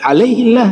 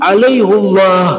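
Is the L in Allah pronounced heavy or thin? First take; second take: thin; heavy. First: The L of Allah sounds light and thin. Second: The L of Allah sounds thick and heavy. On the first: The ordinary grammatical rule is followed. "jadi tarqiq, jadi tipis" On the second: The name of God is given reverence. "jadi besar Allah dengan cara baca"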